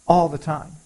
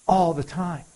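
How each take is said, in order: Both takes have the same delivery.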